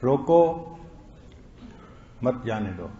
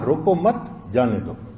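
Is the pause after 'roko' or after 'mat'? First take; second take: after roko; after mat. First: The pause comes right after 'roko'. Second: The pause comes right after 'mat'.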